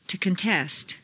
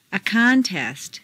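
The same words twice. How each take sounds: First: ConTEST, stressed on the second syllable. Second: CONtest, stressed on the first syllable. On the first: Teacher models verb "contest", second-syllable stress. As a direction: hit TEST in "contest". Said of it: "to the second syllable". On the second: Teacher models noun "contest", first-syllable stress. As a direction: hit CON in "contest". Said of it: "first syllable for nouns". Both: Shown as a demonstration.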